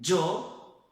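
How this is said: The first consonant is a dj sound. This is how it is said in other countries. "outros países o som de, de um D misturado com um J"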